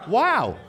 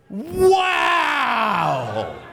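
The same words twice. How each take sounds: First: It is said with medium excitement. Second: It is said with great excitement.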